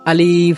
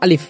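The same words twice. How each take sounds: First: The vowel is drawn out with added nasal sound. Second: The vowel is short with no nasal sound. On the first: The speaker calls it wrong. "এটা একেবারেই ভুল" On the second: The speaker calls it right. "কোনো টান বা মদ বা গুন্না হবে না"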